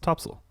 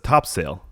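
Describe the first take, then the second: First: The name is pronounced unlike its spelling. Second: The name is pronounced just as it is spelled. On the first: The speaker calls it right. "It's like no, it's Topsail" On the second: The speaker calls it wrong. "people be like it says Topsail"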